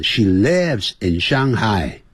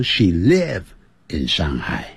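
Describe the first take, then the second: First: LIVES with a clear final s sound; "lives" slowly, sounding the ending; verb ending pronounced. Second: LIVE ending on v, no s; "live" bare, without the final s sound; verb ending dropped. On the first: Teacher recalling the correct form, LIVES with audible ending. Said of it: "就像刚才讲". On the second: Teacher showing the wrong form, LIVE with no ending. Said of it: "而不是说". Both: Shown as a demonstration.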